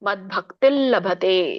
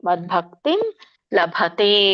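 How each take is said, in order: First: The first word ends in an l sound. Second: The first word ends in an m sound. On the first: "ಮದ್ಭಕ್ತಿಲ್ ಲಭತೆ ಅಂತ ಕರೀತಾರೆ ಅದಕ್ಕೆ ಸರಿಯಾಗಿ" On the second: "ನೀವು ಮ ಹೇಳಿದ್ರು ತೊಂದ್ರೆ ಇಲ್ಲ"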